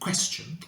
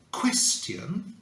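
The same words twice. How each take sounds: First: It is said in a common, everyday way. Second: It is said in a very posh, refined way. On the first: "instead of question" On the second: "question instead of"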